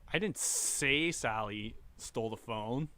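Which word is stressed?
say. The word 'say' carries the main stress. It was conveyed without words. "I gestured it"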